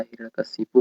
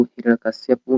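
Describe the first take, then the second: First: "हिरण्यकशिपु" ending kashi-pu; correct pronunciation. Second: "हिरण्यकश्यपु" ending kashya-pu; wrong pronunciation. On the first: Teacher correcting for students, "हिरण्यकशिपु" ending kashipu. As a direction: say shi, without ya, in "हिरण्यकशिपु". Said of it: "हिरण्यकशिपु होता है". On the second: Teacher showing students the error, "हिरण्यकश्यपु" ending kashyapu. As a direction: put a ya glide before pu in "हिरण्यकश्यपु". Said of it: "हिरण्यकश्यपु नहीं होता है". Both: Shown as a demonstration.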